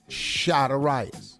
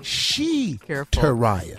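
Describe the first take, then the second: First: The first syllable sounds like 'shy'. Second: The first syllable sounds like 'she'. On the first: "S-H-I, shy" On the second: "People have called it she"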